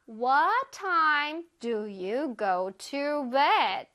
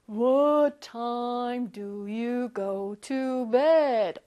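First: It is said in a normal voice. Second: It is said in a very deep tree voice.

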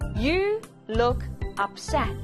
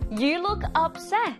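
First: It is said slowly. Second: It is said at normal speed.

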